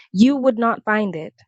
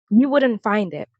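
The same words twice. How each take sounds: First: "would not" said as two separate words; emphatic restatement. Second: Said in the usual way. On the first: Real, not acted. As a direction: restate it firmly, giving NOT its own full weight.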